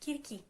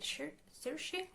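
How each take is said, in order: First: The name starts with a k sound, Greek style. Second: The name starts with an s sound, English style. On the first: This is the native Greek way to say the name. "the actual pronunciation, which is Kirki" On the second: This is how non-Greek speakers say the name. "I try to pronounce a Greek word slash Greek name in the way that people whose first language isn't Greek try to pronounce it"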